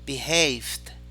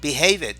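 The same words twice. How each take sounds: First: The -ed ending joins the consonant, no extra syllable. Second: The -ed ending is said as a separate syllable. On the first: The speaker calls it right. "sino behaved" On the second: The speaker calls it wrong. "No es behaved"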